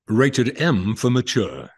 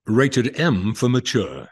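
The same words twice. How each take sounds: First: It is said in an English accent. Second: It is said in an English accent.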